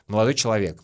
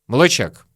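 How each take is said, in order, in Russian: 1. Каждый слог этого слова четко произносится. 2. Слово сжимается в краткую форму 'chek'. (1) "четко все выговариваю, проговариваю. Я говорю «человек»" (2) "на улице очень часто можно услышать чек"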